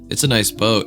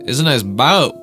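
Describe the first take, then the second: First: It is said plainly, without extra flavor. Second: It is said with extra attitude and flavor.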